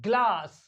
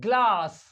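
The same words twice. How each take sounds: Both takes have the same delivery.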